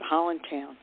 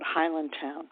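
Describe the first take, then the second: First: It is said in a Baltimore accent. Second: It is said in a standard accent.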